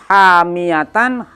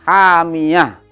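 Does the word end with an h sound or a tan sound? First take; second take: tan; h. First: The word ends with a full tan sound. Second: The word ends with a soft h sound. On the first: The word is read without stopping on it. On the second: The reader stops on the word.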